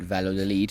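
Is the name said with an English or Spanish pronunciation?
English. It is said with an English-style pronunciation. This is how someone else said it. The speaker calls it wrong. "on the audiobook talking about Valladolid"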